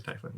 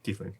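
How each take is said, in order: First: "tiefling" with an eye sound, TIE-fling; low-volume "tiefling", first vowel as in "tie"; TIE-fling pronunciation. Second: "Tiefling" with a long ee, TEEF-ling; quiet "Tiefling", first vowel as in "tea"; TEEF-ling pronunciation. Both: Shown as a demonstration. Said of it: "Like, potato, potato".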